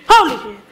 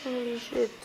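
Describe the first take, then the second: First: Loud, sudden yell of shock; real fright, blurted loud; startled shout. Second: Softer, breathed out in dread; quiet awed curse; hushed. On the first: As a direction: shout it as something jumps out. Jump scare in horror game. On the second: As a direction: murmur it under your breath. Creeping through horror game. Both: Real, not acted.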